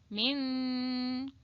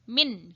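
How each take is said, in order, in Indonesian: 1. Bunyi n di akhir tersembunyi dan samar, keluar melalui hidung. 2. Bunyi n di akhir diucapkan dengan jelas dan penuh. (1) "tapi menjadi samar" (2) "tidak jelas seperti min gitu ya"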